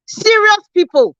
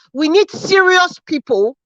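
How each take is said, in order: First: "serious" lifted high and drawn out slowly; "serious people" repeated higher and slower for weight; stress on serious. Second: Said in the usual way. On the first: Real, not acted. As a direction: lean hard on "serious", slow and raised. Emphatic repetition to the caller's audience.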